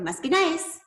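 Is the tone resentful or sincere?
resentful. It sounds resentful and sarcastic.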